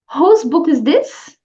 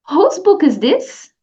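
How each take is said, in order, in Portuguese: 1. É dita com entonação clara de pergunta. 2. É dita com entonação clara de pergunta.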